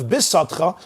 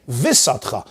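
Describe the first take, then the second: First: "bisatcha" with a hard b at the start; bisatcha, firm b sound. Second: "visatcha" with a v instead of b; visatcha, loose v sound; soft V, visatcha. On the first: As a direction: say bisatcha with a powerful B. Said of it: "That's a powerful beis with a dagish". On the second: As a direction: say visatcha, weakening the B to V. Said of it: "Instead, I'm gonna say a vase". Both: Shown as a demonstration.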